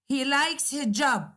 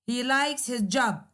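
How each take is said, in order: Both takes have the same delivery.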